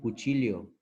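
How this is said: The 'll' is sounded like 'ly'. "ellos dicen cuchillo"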